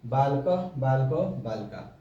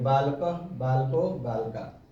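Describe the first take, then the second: Both takes have the same delivery.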